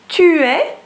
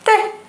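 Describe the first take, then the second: First: Both words are said in full. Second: The words are squeezed into one syllable. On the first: "tu es becomes t'es" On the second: "becomes t'es"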